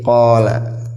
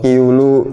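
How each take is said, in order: First: The word is read with vowels a, a. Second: The word is read with vowels i, u, u. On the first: The speaker calls it right. "Makanya kalau seperti ini jadi qala" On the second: The speaker calls it wrong. "tapi nggak boleh"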